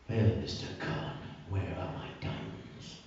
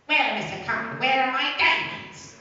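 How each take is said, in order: First: The voice is lower and not nasal. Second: The voice is pitched noticeably higher.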